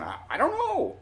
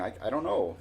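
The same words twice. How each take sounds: First: Very high, louder strained helpless cry; exaggerated mouthing. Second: Near-usual pitch, mock mouthing to someone far off; mouthed message. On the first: Telling brother and buddy across the lot, exaggerated high helpless mouthing. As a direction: act out a helpless message pitched way up. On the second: Explaining to brother in the pickup, lightly imitated mouthing. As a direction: lightly act out mouthing the words. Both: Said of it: "I'm mouthing".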